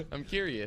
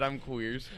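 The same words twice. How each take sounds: First: Said in the usual way. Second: "queers" said as one clipped syllable, kweerz; "I'm queers" with "queers" rhyming with beers; misheard word. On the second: Retold or imitated. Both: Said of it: "I thought you said".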